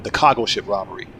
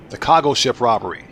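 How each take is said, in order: First: Said in the usual way. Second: "cargo" said the Baltimore way, a rounded kaw-go; northeastern accent slip. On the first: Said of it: "I wanted to say cargo ship". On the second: Real, not acted. Gamer reading chat, northeastern "cargo" slips out. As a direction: northeastern "cargo" slipping out unguarded. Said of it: "that's my northeastern accent getting out".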